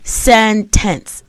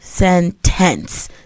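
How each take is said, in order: First: The stress is on the first syllable. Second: The stress is on the second syllable. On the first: The speaker calls it right. "the first syllable is stressed" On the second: The speaker calls it wrong. "not sentence"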